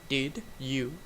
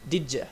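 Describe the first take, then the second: First: Both words are said separately and clearly. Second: The two words run together as 'didja'. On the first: "Instead of did you" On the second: "it's reducted. Did ya?"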